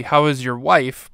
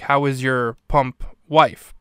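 First: How is your wife said slowly, each word weighted; "How is your wife?" drawn out, no break before wife; slow, pointed delivery of "How is your wife?"; slow deliberate line. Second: "pump" dropped in just before "wife", said slowly; slow take with a beat of "pump" before "wife"; "How is your pump wife?" with a knowing pump before wife; pause filled with pump. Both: Shown as a demonstration. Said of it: "figuring out where to put the pause".

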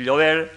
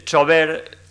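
First: Llover with palatal ll; plain llover; standard form. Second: Chover with ch, very slow; western form. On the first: Lecturer gives standard llover after chover. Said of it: "para decir llover". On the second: Lecturer contrasts chover with llover, slow ch. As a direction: stretch out chover. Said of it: "se dice chover". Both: Shown as a demonstration.

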